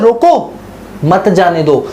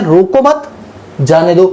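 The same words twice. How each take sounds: First: "रोको" alone, pause, then "मत जाने दो"; pause after रोको. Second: "रोको मत" together, pause, then "जाने दो"; pause after मत. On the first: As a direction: break after "रोको", drop pitch on "मत जाने दो". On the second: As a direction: break after "मत", drop pitch on "जाने दो". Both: Shown as a demonstration. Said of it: "अपनी interpretation ले लेते हैं".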